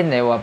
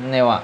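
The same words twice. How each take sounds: The two takes are said the same way.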